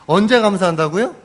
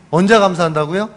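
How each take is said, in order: First: 언제 lifted, rising question to the congregation; preacher asks the congregation, punching 언제 with a rise; stress on 언제. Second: 언제 pushed louder, rising question; preacher repeats the question louder to the congregation, stressing 언제; stress on 언제 again, louder. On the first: 언제 강조하며 묻기. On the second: 언제 크게 강조. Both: Shown as a demonstration.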